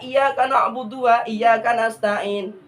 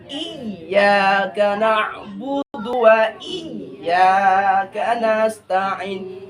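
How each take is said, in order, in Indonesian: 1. Bunyi y dalam iyyaka pendek dan tunggal. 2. Bunyi y dalam iyyaka ditekan dan ganda. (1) "Salah kan?" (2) "kita tekan i-nya. Tuh. Harus ditekan"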